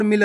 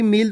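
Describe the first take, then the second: First: मिल with a short i, set against the long word; short vowel. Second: मील with a long ee, set against the short word; long vowel. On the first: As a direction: keep the vowel of मिल brief. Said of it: "इसको आपको खींच के नहीं पढ़ना". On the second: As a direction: give मील its longer vowel. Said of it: "अगर खींच के पढ़ोगे". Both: Shown as a demonstration.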